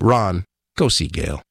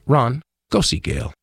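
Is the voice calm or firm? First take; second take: firm; calm. First: It is said in a firm voice. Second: It is said in a calm voice.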